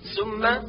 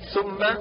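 First: The word starts with an s sound. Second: The word starts with a th sound. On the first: The speaker calls it wrong. "كالنطق بالثاء سينا" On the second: The speaker calls it right. "والصواب"

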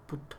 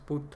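First: A British accent with a crisp, clipped t. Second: An American accent with a softer, drawn-out t. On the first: "Pero en británico es put. Las P y las T son marcadas, son cortas" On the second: "americano dices put"

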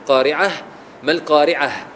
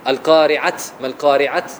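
First: The final h is breathed out audibly. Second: The final h is cut off without breath. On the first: The speaker calls it right. "هذه الهمس، تقف على الحرف ثم بعد ذلك تعطي نفس" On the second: The speaker calls it wrong. "إذا سكناها بتقولش"

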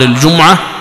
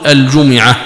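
First: The m is followed by no vowel. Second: The m is followed by an i vowel. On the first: "بسكون الميم" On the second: "بكسر الميم"

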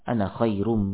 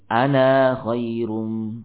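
First: The final vowel of ana is short. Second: The final vowel of ana is long. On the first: The speaker calls it right. "di situ dipendekkan ana" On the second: The speaker calls it wrong. "tidak di ana khairum, tidak demikian"

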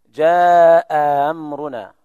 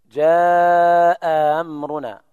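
The two takes are said the same way.

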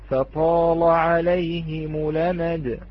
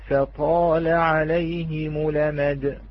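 The two takes are said the same way.

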